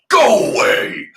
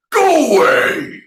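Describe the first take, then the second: First: Big roaring shout, louder and higher; thundering dragon. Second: Huge, high roaring command; thundering dragon. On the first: Dragon driving off the tiger, thundering shout. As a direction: roar it so even the girl trembles. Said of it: "Dragon thundered in a voice". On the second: Dragon shouting at the tiger, thundering roar. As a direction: bellow it like a dragon driving off a tiger. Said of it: "Dragon thundered". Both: Acted.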